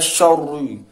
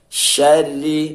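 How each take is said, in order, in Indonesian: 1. Bunyi r itu berat dan tebal. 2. Bunyi r itu tipis dan ringan. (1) "jangan dibaca syarri" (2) "ro yang berbaris bawah, terkik ya teman-teman, tipis"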